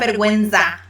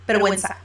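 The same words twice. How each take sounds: First: The z is said with a buzzing z sound. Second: The z is said with a hissing s sound. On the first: The speaker calls it wrong. "it's not vergüenza" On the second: The speaker calls it right. "like an S sound"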